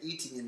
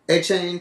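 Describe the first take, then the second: First: The name sounds like 'eh-tee-en'. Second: The name sounds like 'ay-chain'. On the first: This is how others have been saying it. The speaker calls it wrong. "we've been saying Etienne his whole career" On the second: This is how the person himself says it. The speaker calls it right. "What is it?"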